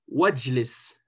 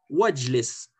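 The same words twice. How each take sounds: No difference in how they are said.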